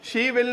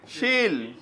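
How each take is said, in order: First: Two full separate words are said. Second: The words merge into one short syllable. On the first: The speaker calls it wrong. "शी विल नहीं" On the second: The speaker calls it right.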